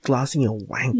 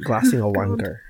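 First: It is said in the speaker's usual accent. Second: It is said in a put-on Scottish accent.

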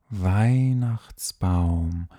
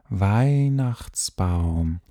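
Both takes have the same delivery.

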